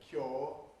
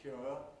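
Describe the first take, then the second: First: The vowel is a steady 'aw' sound. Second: The vowel glides from 'oo' to 'uh'. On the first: This is the newer, increasingly common pronunciation. "it's replaced by the or thought, so that people say cure" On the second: This is the older, disappearing pronunciation. "rather than cure"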